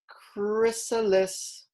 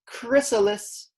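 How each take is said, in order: First: Chrysalis said again slowly and carefully; patient second modelling of chrysalis; slow repeat. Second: Chrysalis said high and clear with a falling end; teacher saying chrysalis to repeat; modelled word. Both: Shown as a demonstration.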